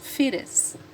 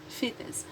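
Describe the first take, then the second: First: It is said in an American accent. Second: It is said in a British accent. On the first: "American pronunciation"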